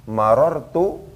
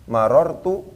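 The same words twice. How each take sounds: No difference in how they are said.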